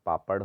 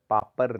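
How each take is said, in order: First: पापड़ ending in a retroflex flap; correct ड़. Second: पापर ending in plain r; wrong r. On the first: Teacher correcting it, पापड़ with flapped ending. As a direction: curl the tongue for पापड़. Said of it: "होता है". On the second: Teacher showing the error, पापर with r ending. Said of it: "नहीं होता". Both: Shown as a demonstration.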